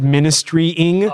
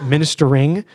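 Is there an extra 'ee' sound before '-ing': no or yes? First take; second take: yes; no. First: It is said as ministry-ing, with an extra vowel. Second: It is said as minister-ing, with no extra vowel. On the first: The speaker calls it wrong. "I think I added the Y" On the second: The speaker calls it right. "I pronounced it correctly the second time"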